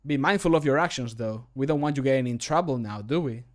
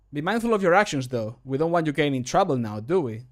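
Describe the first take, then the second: First: Less hurried. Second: Slightly hurried line delivery; too fast. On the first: Re-recorded warning about someone's actions, a bit more measured. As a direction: give the warning a little more time. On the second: Voice line warning someone about their actions, a bit rushed. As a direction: rattle off the warning a little fast. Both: Shown as a demonstration. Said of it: "I believe I said it too fast".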